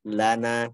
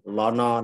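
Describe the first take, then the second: First: The vowels are light and sound like a. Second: The vowels are heavy and sound like o. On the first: The speaker calls it right. "Maka sempurnakan ketipisannya" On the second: The speaker calls it wrong. "Sering tebal"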